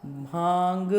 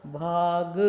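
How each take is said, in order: First: भांग with the आ through the nose; teacher showing the chandrabindu sound; nasal vowel. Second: Said in the usual way. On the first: Shown as a demonstration. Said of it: "चंद्र बिंदु लगा करके फिर इसका उच्चारण". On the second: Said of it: "सीधा हमने बोला".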